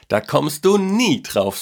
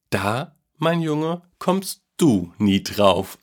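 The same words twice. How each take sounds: First: Put-on high, drawn-out boyish tease; boy's teasing voice. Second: Very slow, drawn-out grandpa tease, starting high; amused teasing. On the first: Boy teases grandpa with his secret, high and drawn-out. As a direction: stretch it out high, sure of your secret. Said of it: "sagte der Junge". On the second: Grandpa keeps his secret from the boy, slow and playful. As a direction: draw each word out, lightly amused. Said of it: "antwortete Opa Werlin lachend". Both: A narrator's reading.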